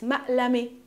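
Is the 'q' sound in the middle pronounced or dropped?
dropped. The middle 'q' sound is dropped. This is the Palestinian dialect form of the word. "In my dialect, it's ma'lami. We don't pronounce the qa"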